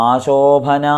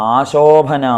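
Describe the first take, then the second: Both takes have the same delivery.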